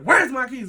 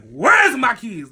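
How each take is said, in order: First: High, firm, shorter demand; controlled yell. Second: Long, drawn-out high holler; loud yell. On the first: Speaker controls herself demanding keys from cousin, restrained high yell. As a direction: raise the voice but rein it in. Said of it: "I had to control myself". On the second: Speaker almost loses it demanding keys from cousin, loud drawn-out yell. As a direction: bellow it slowly, stretching the first word. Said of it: "I end up yelling his name so loud". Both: Retold or imitated.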